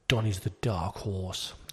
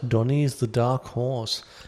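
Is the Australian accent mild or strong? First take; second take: strong; mild. First: It is read in a broad, strong Australian accent. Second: It is read in a milder, everyday accent.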